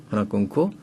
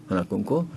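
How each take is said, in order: The two takes are said the same way.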